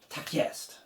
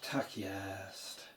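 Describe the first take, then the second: First: It is said in an enthusiastic, lively tone. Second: It is said in a plain, matter-of-fact tone. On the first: That's the one. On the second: That's how it is.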